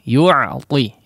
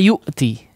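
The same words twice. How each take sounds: First: The middle consonant is a throaty ain sound. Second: The middle consonant is a glottal stop. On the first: It means to give. The speaker calls it right. "Diperhalus ya" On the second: It means to come. The speaker calls it wrong. "Di situ menggunakan e, hamzah dan juga ta ya"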